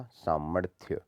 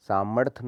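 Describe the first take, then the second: First: सामर्थ्य ending "rthya"; correct final ya. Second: सामर्थ्य cut to "saamarth"; wrong dropped y. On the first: Teacher saying ya belongs here, सामर्थ्य with final ya. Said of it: "तो यहाँ पे या". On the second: Teacher showing the error, सामर्थ्य without ya. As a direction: leave the ya off सामर्थ्य. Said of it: "नहीं होता". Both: Shown as a demonstration.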